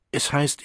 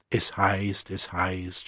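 First: Said in the usual way. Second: Mocking. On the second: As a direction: throw the phrase back with scorn. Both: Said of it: "spottete Lenina".

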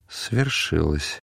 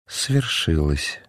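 First: Slow, low, sad and soft. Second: Repeated softly. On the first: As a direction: breathe it out slowly like a grieving man. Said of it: "сказал грустный, мягкий голос". (грустно и мягко, медленно) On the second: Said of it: "Мельхиор повторил". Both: A narrator's reading.

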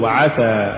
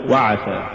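First: وعسى very slow, light waw flowing in; correct reading. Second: وعسى lower, waw stressed apart; wrong reading. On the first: Teacher modelling the correct وعسى slowly. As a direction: say وعسى as one smooth word. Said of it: "قل وعسى". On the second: Teacher showing the mistaken وعسى, lower. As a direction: drop low and push the waw of وعسى. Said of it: "ولا تقل". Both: Shown as a demonstration.

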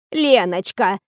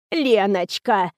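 First: Put-on wheezing old woman. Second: A hint of a creaky old woman, slow; whining cracked voice. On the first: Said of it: "хрипела она". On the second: Old actress whines at the heroine, mildly cracked. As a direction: drawl the name like a doddering old lady. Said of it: "занудил надтреснутый голос". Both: A narrator's reading.

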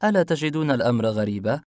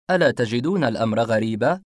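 First: A questioning lift on ألا; wondering aloud. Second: Louder, pointed ألا on the repeat; pressing repeat. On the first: A narrator's reading. Detective asks the suspects, wondering aloud. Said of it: "ابتسمت وأنا أتنفس ببطء متسائلة". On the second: Acted. Detective presses the suspects, repeating louder. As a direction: push ألا تجدون الأمر غريبا home.

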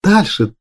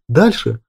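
First: Дальше thrown up high, eager; impatient exclaim. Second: Impatient. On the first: Galya begging Grigor to go on, impatient exclaim. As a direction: urge him on, a touch higher. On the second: Galya pressing Grigor to continue, mild insistence. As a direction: repeat it, settling down. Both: A narrator's reading. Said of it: "нетерпеливо воскликнула".

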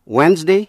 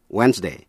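First: Wednesday ending in an "ee" sound, rising; Wednesday with -day reduced to "dee". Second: Wednesday ending in a full "ay", falling; Wednesday with -day rhyming with "say". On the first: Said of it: "thường đọc là E". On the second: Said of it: "nhưng cũng đọc là A". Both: Shown as a demonstration.

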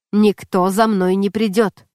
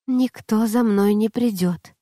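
First: "никто за мной не придёт" slow and firm; твёрдое наставление. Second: Lightly voiced boy repeating "Никто за мной не придёт"; тонкий мальчишеский голос. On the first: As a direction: dictate "никто за мной не придёт" word by word, firmly. Наставник велит повторить за ним. (медленно, твёрдо: «никто за мной не придёт») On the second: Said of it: "приятный голос, тонкий и выразительный". (негромко, медленно, как послушный мальчик) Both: A narrator's reading.

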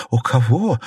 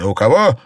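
First: Puzzled «У кого?», a little higher; astonished. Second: Loud, scornful «У кого?»; mocking echo. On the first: Wife has no idea whom he means, astonished. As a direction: ask «У кого?» in amazement. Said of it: "изумилась Фэнзе". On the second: Husband echoes his wife's question, loudly mocking. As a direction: throw «У кого?» back at her loudly. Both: A narrator's reading.

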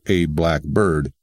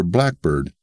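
First: "black bird" as two separate words, BIRD fully stressed. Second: "blackbird" as one word, BLACK-bird; compound stress. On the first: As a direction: give BIRD its own weight in "black bird". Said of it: "as opposed to". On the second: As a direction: hit BLACK in "blackbird" and let bird drop. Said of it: "The same goes for". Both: Shown as a demonstration.

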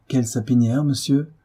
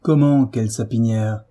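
First: Absent-minded, bewildered question; mildly flustered. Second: Indignant retort with a firm attack on "Comment"; angry echo question. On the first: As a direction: ask it distractedly, a touch shaken. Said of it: "sans trop savoir ce qu'elle disait". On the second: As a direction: throw the question back, irritated. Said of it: "l'accent rude et courroucé". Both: A narrator's reading.

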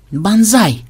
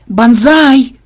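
First: A touch of a feeble wheeze; weak croak. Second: Loud, high shout; yell. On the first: Programmer calling his captain over a discovery, weak croak. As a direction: call it out weakly, as if croaking. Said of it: "слабо прохрипел он". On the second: Programmer urgently calling his captain over, loud yell. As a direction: bellow the name, high and drawn out. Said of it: "Чего орёшь?". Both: A narrator's reading.

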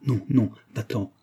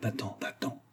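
First: Voiced, anxious urging; a touch of anguish, held in. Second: Very soft, furtive plea; whispered urging. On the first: Antonine begging her lover to leave, mildly anguished. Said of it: "répéta Antonine avec angoisse". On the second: Antonine sending her lover away behind mother's back, whispered. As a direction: whisper it so nobody else hears. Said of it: "chuchota Antonine". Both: A narrator's reading.

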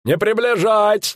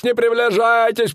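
First: Приближайтесь leaned on, high barker call; barker's warning, приближайтесь stressed. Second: Не hit hard and high, приближайтесь falling; barker's repeat, не stressed with a falling end. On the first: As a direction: warn the crowd, weight on приближайтесь. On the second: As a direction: punch the не in the warning. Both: Acted.

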